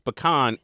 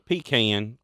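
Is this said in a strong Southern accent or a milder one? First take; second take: milder; strong Southern. First: It is said in a milder, less Southern accent. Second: It is said in a strong Southern accent. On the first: "But for me, it's pecan" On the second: "if I did talk like this"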